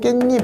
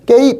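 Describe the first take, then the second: First: An added n sound begins the second syllable. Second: The second syllable begins with a plain vowel. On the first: The speaker calls it right. "이렇죠. ... 없던 니은이 생기면" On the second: The speaker calls it wrong. "이렇지 않고"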